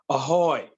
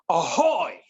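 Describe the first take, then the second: First: It is said weakly, without commitment. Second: It is said loudly, with great energy.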